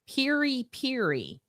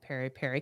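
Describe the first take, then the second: First: The first vowel of each word sounds like 'ee'. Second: The first vowel of each word sounds like 'eh'. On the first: The speaker calls it right. "is apparently how you pronounce it" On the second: The speaker calls it wrong. "I didn't know I was calling it"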